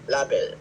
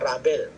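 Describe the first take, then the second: First: The word begins with a soft L sound. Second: The word begins with an R sound. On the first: The speaker calls it right. "This is label" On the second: The speaker calls it wrong. "Hindi siya rabel"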